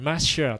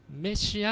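First: マシア with an "a" first, "ma-shi-a"; マシア as closer to the original word; original-style pronunciation. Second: メシア said "me-shi-a", the Japanese way; メシア as the usual Japanese loanword; Japanese pronunciation. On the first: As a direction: say マシア slowly, stronger on the opening "ma". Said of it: "そういう発音になったり". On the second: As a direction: open メシア on an "e" vowel. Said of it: "実際はもっとね". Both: Shown as a demonstration.

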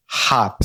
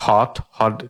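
First: "hot" with an open ah vowel, like haat; American pronunciation. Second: "hot" with a rounded British o; British pronunciation. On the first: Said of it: "হাটটা বেশি উচ্চারণ". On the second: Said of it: "ব্রিটিশরা বলে". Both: Shown as a demonstration.

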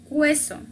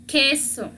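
First: "hueso" with the u sounded, a w glide; mispronounced queso. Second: "queso" with a hard k, silent u; correct pronunciation. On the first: Teacher showing students how not to read cheese, mispronounced. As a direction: say "hueso", wrongly voicing the u. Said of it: "para leerla no vamos a decir". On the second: Teacher correcting how to read the Q word, correct pronunciation. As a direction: say "queso" as KE-so, no w glide. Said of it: "no vamos a decir hueso". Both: Shown as a demonstration.

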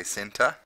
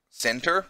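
First: "center" without the final R; New Zealand pronunciation. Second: "center" with a hard R at the end; American pronunciation. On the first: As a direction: end "center" on an open vowel, British-style. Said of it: "and we say center". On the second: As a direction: sound the final R in "center", American-style. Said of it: "American people say shopping center". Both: Shown as a demonstration.

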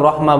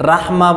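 First: রহমা with rounded ro; correct pronunciation. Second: রাহমা with an open aa after র; wrong pronunciation. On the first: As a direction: say রহমা without aa after র. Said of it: "সবাই আমরা রহমা বলি". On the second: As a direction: say রাহমা with a thin ra, as the mistake. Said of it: "রাহমা বলি না". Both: Shown as a demonstration.

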